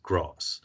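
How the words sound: It is said with a southern English accent.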